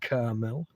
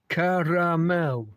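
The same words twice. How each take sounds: First: The word is said with two syllables. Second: The word is said with three syllables.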